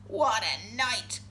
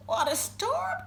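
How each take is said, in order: First: Lightly voiced low, slow mole; a hint of a grumbling mole, drawn out; muttering mole. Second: High-pitched little bird voice; twittering wren. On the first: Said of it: "Mole mutters". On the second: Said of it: "twitters wren". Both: A narrator's reading.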